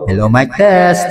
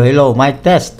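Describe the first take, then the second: First: The voice sounds echoey, with reverb. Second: The voice sounds dry, without echo. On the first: "ngayon naka-reverb na siya" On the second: "nawala yung noise reduction na tool"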